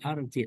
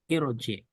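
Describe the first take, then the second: First: The word begins with an a vowel. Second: The word begins with an i vowel. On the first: The speaker calls it wrong. "bukan arji" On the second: The speaker calls it right. "alifnya kasroh"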